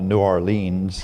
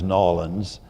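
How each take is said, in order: First: The name is said in full, syllable by syllable. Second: The name is run together into fewer syllables. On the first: This is how an outsider says the name. The speaker calls it wrong. "a place that I used to call New Orleans" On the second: This is how locals say the name. The speaker calls it right. "then I learned to pl- pronounce as Nolans"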